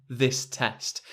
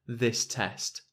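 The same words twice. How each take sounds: No difference in how they are said.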